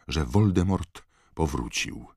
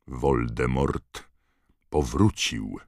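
First: Said in the usual way. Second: „Voldemort” bardzo wolno, „powrócił” z opadającym tonem; rozciągnij „Voldemort”, potem stanowczo „powrócił”; powolne powtórzenie. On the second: Acted. (z naciskiem i powoli) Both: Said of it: "powtórzył Dumbledore".

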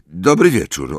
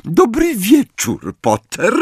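First: Stiff, curt reply. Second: High, slow sugary teacher voice; sickly sweet, drawn-out greeting; Umbridge sweetness. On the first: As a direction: say it coldly, no warmth. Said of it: "odpowiedział sztywno". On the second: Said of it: "profesor Umbridge przemówiła". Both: A narrator's reading.

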